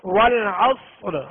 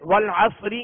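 First: The r sound is heavy and full. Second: The r sound is light and thin. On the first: The reading stops on this word. "تو اب اس کو پر پڑھیں گے" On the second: The reading continues without a stop. "لہذا اس را کو باریک پڑھیں گے"

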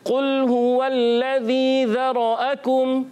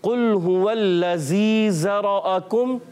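First: The ذ is said like th in this. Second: The ذ is said like a z sound. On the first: The speaker calls it right. "ہم پڑھیں گے" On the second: The speaker calls it wrong. "زال کو پڑھ دیتے ہیں زا، تو یہ تو غلط ہو جائے گا"

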